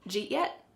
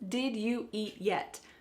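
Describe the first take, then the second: First: Did is dropped; you and eat merge. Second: Every word is said fully, without reduction. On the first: "it's reduced so much it doesn't sound like any English word" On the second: "This means"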